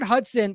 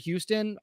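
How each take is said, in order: First: The name is said as Hudson. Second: The name is said as Houston. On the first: The speaker calls it wrong. "I always pronounced it Hudson" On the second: The speaker calls it right. "apparently I guess you pronounce his name Houston"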